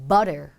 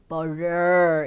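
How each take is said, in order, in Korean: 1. 강세를 받지 않는 모음은 힘을 뺀, 약화된 uh예요. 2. 강세를 받지 않는 모음도 완전하고 또렷하게 발음해요.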